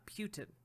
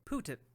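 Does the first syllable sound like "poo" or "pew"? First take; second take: pew; poo. First: The first syllable sounds like "pew". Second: The first syllable sounds like "poo". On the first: The speaker calls it wrong. "not Putin" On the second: The speaker calls it right. "his name's Putin"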